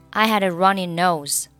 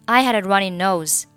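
Both takes have the same delivery.

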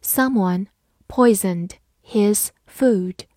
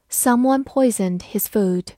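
First: Slow, word-by-word model reading. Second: Said in the usual way. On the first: Shown as a demonstration. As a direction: read it slowly, pausing between words. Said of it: "好，慢慢来读". (慢慢朗读，逐词停顿) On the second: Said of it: "慢慢来读".

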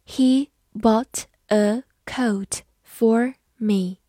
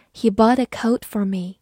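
First: Very slow, each word set apart; slow language-teacher model with clear gaps. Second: Said in the usual way. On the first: Shown as a demonstration. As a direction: dictate it one word at a time.

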